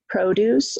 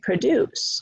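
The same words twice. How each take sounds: First: The stress is on the first syllable. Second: The stress is on the second syllable. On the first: It is a noun. "First syllable is stressed, produce, it's a noun" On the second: It is a verb. "Produces is second syllable, so that's a verb"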